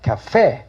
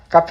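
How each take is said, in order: First: The stress is on the second syllable. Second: The stress is on the first syllable. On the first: The speaker calls it right. "페 강세 하시겠죠?" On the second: The speaker calls it wrong. "카페 우리 많이 틀립니다"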